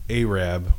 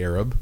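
First: It is said with the film's pronunciation. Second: It is said with the everyday pronunciation. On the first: This copies how the name was said in a film. "that's the way they pronounced it" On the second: This is how the word would normally be said.

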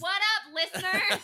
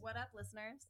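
First: It is said very loudly. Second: It is said at a normal volume.

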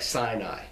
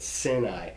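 First: The first syllable has a long I vowel. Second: The first syllable has no long I vowel. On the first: This is the accepted anglicized form. The speaker calls it wrong. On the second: This is closer to the original form. The speaker calls it right.

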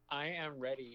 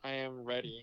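First: It is said with enthusiasm. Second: It is said flatly, without excitement.

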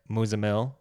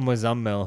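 First: The name is pronounced in an anglicized way. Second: The name is pronounced in its original way. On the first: This is the version given to others. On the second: This is the person's real name.

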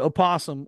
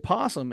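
First: An extra vowel sound comes before the p. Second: The word starts directly with the p sound. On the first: "So you can say opossum" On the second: "or you say possum and it's still spelled the same way"

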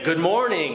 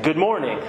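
First: The greeting sounds displeased and demanding. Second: The greeting sounds plain and neutral. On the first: The first response was not good enough. "again, in this tone" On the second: A simple first greeting. "they'll get up and they'll say something like"

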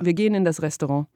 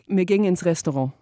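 First: It is said in Standard German. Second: It is said in Bavarian dialect.

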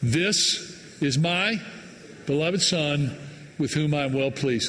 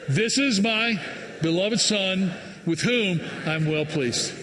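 First: It is read flatly, with low energy. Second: It is read lively, with high energy.

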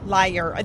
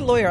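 First: The first syllable sounds like 'lie'. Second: The first syllable sounds like 'law'. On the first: "I do not say liar. That sounds like an East Coast thing" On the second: "I say lawyer"

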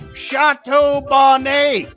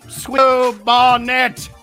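First: It is said with a French accent. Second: It is said with an American accent.

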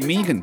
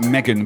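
First: The name is said the Australian way. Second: The name is said the English way. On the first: "but in Australia they like to say" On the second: "I know it's in England, we pronounce it Megan"

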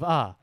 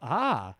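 First: It sounds hesitant and unsure. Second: It sounds amazed and impressed.

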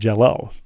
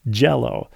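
First: The stress is on the second syllable. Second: The stress is on the first syllable. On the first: The speaker calls it wrong. "Not Jell-O" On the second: The speaker calls it right. "Emphasis on gel"

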